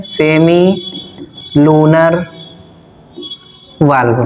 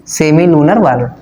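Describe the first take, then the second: First: semi, then lunar, then valve, each said alone with long pauses between; word by word. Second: Said in the usual way. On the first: Shown as a demonstration. Teacher dictating the English name to students, word by word with pauses. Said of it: "English में क्या बताया था मैंने?". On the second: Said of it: "ठीक है".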